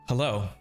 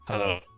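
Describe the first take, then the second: First: It is said in a neutral, natural voice. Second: It is said in a robotic voice.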